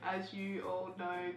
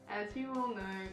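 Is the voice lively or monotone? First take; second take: monotone; lively. First: It is said in a flat, robotic monotone. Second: It is said with a varied, lively pitch.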